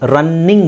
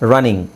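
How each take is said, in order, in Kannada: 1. ಮಧ್ಯದ n ಒತ್ತಕ್ಷರ, ಉದ್ದವಾಗಿ ಹೇಳ್ತೀರಿ. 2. ಮಧ್ಯದ n ಒಂದೇ ಅಕ್ಷರ, ಚಿಕ್ಕದಾಗಿ ಹೇಳ್ತೀರಿ.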